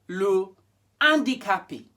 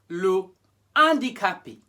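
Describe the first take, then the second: The two takes are said the same way.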